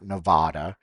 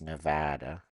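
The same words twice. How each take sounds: First: The middle vowel is an 'ah' sound. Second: The middle vowel is not an 'ah' sound. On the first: The speaker calls it wrong. "It's not Nevada" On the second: The speaker calls it right. "that's not how you pronounce it. It's Nevada"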